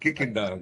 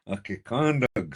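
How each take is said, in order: First: The name sounds like the English words kicking dog. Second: The name is said as one native-style word. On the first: The speaker calls it wrong. "No, it's not kicking dog" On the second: The speaker calls it right. "It's Okekondog"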